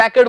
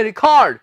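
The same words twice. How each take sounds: First: First "रिकॉर्ड" said REK-erd, stressed up front; "रिकॉर्ड" with REK stressed and a reduced ending; noun pronunciation of record. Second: Last "रिकॉर्ड" said ri-KORD, stressed on the end; "रिकॉर्ड" with short ri and long KORD; second pronunciation of record. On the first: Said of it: "पर कहां रिकॉर्ड बोलना है". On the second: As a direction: say "रिकॉर्ड" as ri-KAWRD. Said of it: "कहां बोलना है आपने रिकॉर्ड". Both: Shown as a demonstration.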